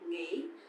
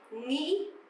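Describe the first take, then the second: First: It is said softly, southern Vietnamese style. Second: It is said sharply, northern Vietnamese style.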